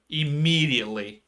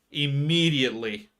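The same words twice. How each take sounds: The two takes are said the same way.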